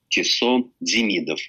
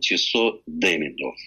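First: Demidov is not stressed on its first syllable. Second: Demidov is stressed on its first syllable. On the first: This is the official Russianized form of the name. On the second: This is the European way of saying the name.

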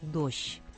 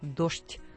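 First: The word is pronounced with a softer ending. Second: The word is pronounced with a crisp, hard ending. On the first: This is how one city pronounced it. "произношение было более мягким" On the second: This is how the other city pronounced it. "чеканным"

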